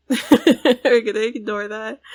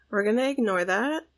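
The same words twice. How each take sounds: First: Laughing. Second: Said in the usual way. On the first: Real, not acted. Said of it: "repeated, laughing". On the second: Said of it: "repeated line".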